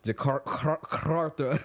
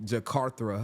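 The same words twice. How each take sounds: First: The R is rolled with a trill. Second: The R is said plainly, not rolled. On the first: "I gotta roll my R's" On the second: "I can't say it"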